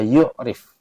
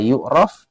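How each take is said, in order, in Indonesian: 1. Vokal terakhir adalah bunyi 'i'. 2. Vokal terakhir adalah bunyi 'a'. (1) "bisa dibaca yu'rif" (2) "bisa dibaca yu'raf"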